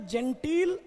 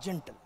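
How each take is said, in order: First: जेंटील with a long ee in the second syllable; pronunciation of जेंटील. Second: जेंटल with a short, unstressed second syllable; pronunciation of जेंटल. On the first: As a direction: draw out the "टील" in जेंटील. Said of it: "इनका pronunciation है जेंटील". (जेंटील में "टी" को लंबा खींचकर) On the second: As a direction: let the "टल" in जेंटल drop away lightly. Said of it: "इनका pronunciation है ... और वो क्या था". (जेंटल में "टल" छोटा और हल्का) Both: Shown as a demonstration.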